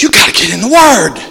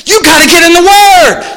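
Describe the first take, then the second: First: Said in the usual way. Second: Higher and louder, hammering it home; loud emphatic repeat. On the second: Acted. Pastor driving home the call to read the Bible, loud emphatic. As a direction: repeat it with a preacher's punch.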